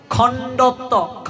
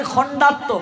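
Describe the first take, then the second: First: খণ্ডত্ব slowly, with o instead of a in the middle; teacher's slow corrected খণ্ডত্ব; corrected pronunciation. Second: খণ্ডাত্ম with a long a in the middle; everyday wrong খণ্ডাত্ম; common mispronunciation. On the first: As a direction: model খণ্ডত্ব slow and careful. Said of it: "যেমন আমরা বলি খণ্ডাত্ম". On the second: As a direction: say খণ্ডাত্ম quickly as people commonly do. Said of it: "যেমন আমরা বলি". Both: Shown as a demonstration.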